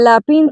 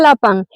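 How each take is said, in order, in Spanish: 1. La última sílaba suena como "een". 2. La última sílaba suena como una "an" nasal. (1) "cuando dije lapín, todo el mundo me miraba" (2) "se dice lapán"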